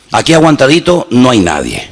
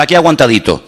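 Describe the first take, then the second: First: Said in the usual way. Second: A sighing, sorry-for-myself aguantadito; light mock self-pity on Aquí aguantadito; mock weary complaint. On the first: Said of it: "No, aquí no se habla así". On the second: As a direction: play the believer who is just getting by. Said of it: "Y tú dices".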